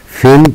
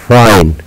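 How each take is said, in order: First: فين short and high, like "fin". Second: فاين with "eye", like "fine"; long i name sound. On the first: Teacher drilling the contrast, short i pitched high. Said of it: "إذن هنا إي قصيرة". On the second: Teacher drilling the contrast, long i. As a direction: say فاين with a gliding, falling long i. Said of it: "وإنما فاين". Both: Shown as a demonstration.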